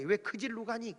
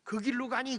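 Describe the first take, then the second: First: 질로 with a j sound, replacing 길로; Gyeongsang dialect pronunciation. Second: Said in the usual way. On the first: Retold or imitated. Preacher quoting grandmothers, 질로 said with dialect j. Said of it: "경상도 사람들은 길을 뭐라고 그래요?". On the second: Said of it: "그래야 되는데".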